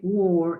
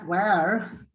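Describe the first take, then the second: First: The vowel sounds like a rounded 'o'. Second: The vowel sounds like an open 'a'. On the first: The speaker calls it right. "you say or like an o, close o" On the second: The speaker calls it wrong. "you don't say where"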